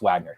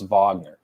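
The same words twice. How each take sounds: First: The name has an American pronunciation. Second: The name has a European pronunciation. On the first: This is how this person's name is actually pronounced. The speaker calls it right. "but it's Wagner" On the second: This is how the foreign players' name is pronounced. The speaker calls it wrong. "So I want to say Thomas Wagner"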